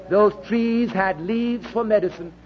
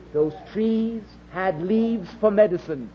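The two takes are said the same way.

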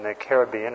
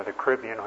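First: Caribbean stressed on BE, ca-rib-BE-an; stress on third syllable. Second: Caribbean stressed on RIB, softly; stress on second syllable. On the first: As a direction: say Caribbean as care-uh-BEE-un. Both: Shown as a demonstration. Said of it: "it's pronounced both ways".

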